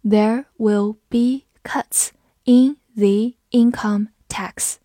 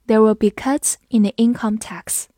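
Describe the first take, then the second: First: Very deliberate word-by-word reading; slow read-along. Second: Said in the usual way. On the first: Shown as a demonstration. Teacher reading for learners to follow, slow and separated. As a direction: read slowly, pausing after each word. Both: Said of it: "好，跟着我慢读一遍".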